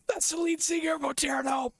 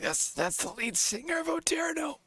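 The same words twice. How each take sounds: First: Excited shout. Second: Hushed, much higher whisper of disbelief; stunned whisper. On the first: Telling his friend who the opener was, shouting in excitement. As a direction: blurt it out at the top of your voice. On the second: Telling his friend who the opener was, in a stunned whisper. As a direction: breathe it out in awe, high. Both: Retold or imitated.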